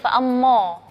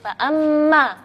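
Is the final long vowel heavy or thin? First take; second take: heavy; thin. First: The final long vowel is heavy and rounded. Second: The final long vowel is thin and light. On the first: The speaker calls it wrong. "Nggak boleh bacanya" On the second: The speaker calls it right. "alifnya kita bacanya tipis"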